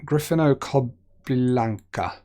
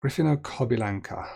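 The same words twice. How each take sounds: First: Gryfino Kobylanka sounded out slowly, each syllable spelled out; careful slow reading. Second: Said in the usual way. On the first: Shown as a demonstration. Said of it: "reading unfamiliar Polish place name". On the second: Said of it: "repeat of the place name".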